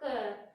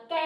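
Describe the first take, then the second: First: क said with the mouth barely open, short and softer; correct short ka. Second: कै said with a wide-open mouth, like kai; wrong open kai. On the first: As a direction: close the mouth a little and say क. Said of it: "मुंह को थोड़ा सा कम खोल के बोला जाएगा". (मुँह कम खोलकर धीमे से क बोलना) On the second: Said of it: "ऐसे नहीं बोलना". (कै को मुँह खोलकर गलत ढंग से बोलना) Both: Shown as a demonstration.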